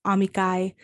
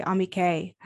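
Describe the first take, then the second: First: Amicae ending in the diphthong ai, ah-mee-kai; classical Latin pronunciation. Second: Amicae ending in a simple ay, ah-mee-kay; ecclesiastical Latin pronunciation. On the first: Guest contrasting classical amicae with church Latin. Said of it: "instead of, for example". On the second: Guest giving the church pronunciation of amicae. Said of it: "you would say". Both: Shown as a demonstration.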